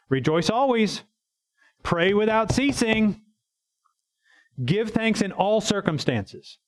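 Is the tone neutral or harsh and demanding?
harsh. It is read in a harsh, demanding tone.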